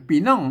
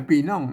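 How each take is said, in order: No difference in how they are said.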